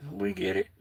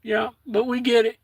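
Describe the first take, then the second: First: Softer, trailing repeat; murmured acceptance; quiet echo. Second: Said in the usual way. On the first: Real, not acted. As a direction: let it fall away to yourself. Softer echo of own phrase.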